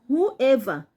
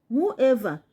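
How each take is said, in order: The two takes are said the same way.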